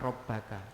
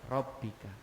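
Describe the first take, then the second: First: The vowel after the double b is 'a'. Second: The vowel after the double b is 'i'. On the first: The speaker calls it wrong. "bukan Robbaka" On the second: The speaker calls it right. "Bacanya tetap Robbi"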